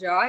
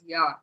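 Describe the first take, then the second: First: It begins with an English J sound. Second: It begins with a Y sound. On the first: The speaker calls it wrong. "It is not ja" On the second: The speaker calls it right. "it is ya"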